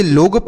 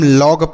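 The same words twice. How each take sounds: First: "लोग" with a round oh vowel; closed o in लोग. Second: "लॉग" with an open aw vowel. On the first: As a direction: mispronounce log as "लोग", like loag. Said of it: "ना तो इसे लोग पढ़ेंगे". ("लोग" बंद ओ स्वर से) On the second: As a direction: say "लॉग" as lawg, not loag. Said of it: "इसे हम लॉग पढ़ेंगे". ("लॉग" खुले ऑ स्वर से) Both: Shown as a demonstration.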